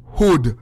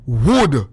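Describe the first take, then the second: First: "hood" beginning with an h sound; the rejected form "hood", starting on h. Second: "Wood" beginning with a w sound; "Wood", not "hood". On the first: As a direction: say "hood", not "Wood". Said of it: "not hood". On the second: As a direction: say "Wood" low, with a clear w. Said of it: "how me say?". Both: Shown as a demonstration.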